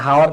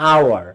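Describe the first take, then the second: First: The word begins with an h sound. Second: The word begins with a vowel sound. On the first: The speaker calls it wrong. "অনেকে হাওয়ার বলে না, হাওয়ার না" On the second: The speaker calls it right. "কিন্তু আওয়ার"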